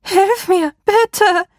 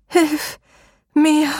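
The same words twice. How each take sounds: First: High, loud desperate scream; trapped woman screams louder for help; panicked scream. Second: High, rasping cry for help; a trapped woman's high croak; croaking plea. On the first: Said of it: "die Schreie der Frau panischer". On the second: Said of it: "krächzte sie". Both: A narrator's reading.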